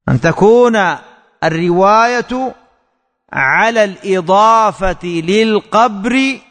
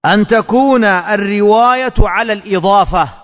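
First: Slow dictation. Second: Said in the usual way. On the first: Shown as a demonstration. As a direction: repeat it slowly with pauses between phrases. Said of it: "أن تكون... (repeated)". (إملاء بطيء مع وقفات بين العبارات)

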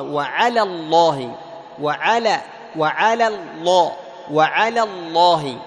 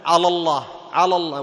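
First: "وعلى الله" with light la, then full heavy Lla; thin then heavy lam. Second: "على الله" with heavy dark l in both words; wrongly thickened lam. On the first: Teacher has students notice the difference, "وعلى" thin, "الله" heavy. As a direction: recite "وعلى الله" firmly, contrasting the two lams. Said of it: "لاحظ الفرق؟". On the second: Teacher warns students what not to say, "على الله" heavy throughout. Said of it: "لا تقول". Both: Shown as a demonstration.

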